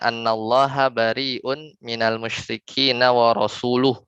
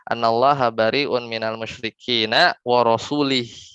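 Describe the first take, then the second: First: The last word ends with an 'u' vowel. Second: The last word ends with an 'i' vowel. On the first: The messenger also disowns the idolaters. The speaker calls it right. "Ya kan harusnya bacanya" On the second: God disowns the messenger too. The speaker calls it wrong. "tapi dibaca sama, eee, salah seorang tabi'in"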